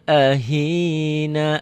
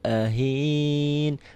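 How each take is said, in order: First: The word ends in a pronounced final vowel. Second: The word ends on a consonant, vowel dropped. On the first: The reading continues on without stopping. "Kalau naknya dibaca, itu berarti dia nyambung" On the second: The reading stops here. "Berhentinya di sini"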